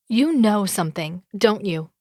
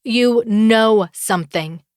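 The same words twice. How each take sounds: First: Pointed, mildly raised accusation; accusing. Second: Slow, loud, angry insistence; angry accusation. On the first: Woman confronting her rival about a secret, accusing. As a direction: press with a probing challenge. First accusation, repeated harder later. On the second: Furious woman repeating her accusation to her rival, angry. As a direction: hammer the accusation out slowly and louder. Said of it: "she's angrier than I've ever seen before". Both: A narrator's reading.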